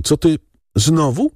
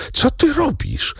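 First: Said in the usual way. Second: High, startled shout of alarm; frightened cry. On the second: A narrator's reading. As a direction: cry out in sudden fear for her. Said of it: "krzyknął Zachojski, przestraszony". (przestraszony okrzyk)

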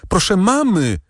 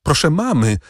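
First: Even higher, more desperate repeat of mamy; more desperate call. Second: High urgent call up the stairs; calling for help. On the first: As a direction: call again, panic rising. (jeszcze wyższe, rozpaczliwe wołanie) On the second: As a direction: summon her stepmother, pleading. (wołanie o pomoc do macochy) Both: Acted. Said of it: "zawołała Valentin macochę".

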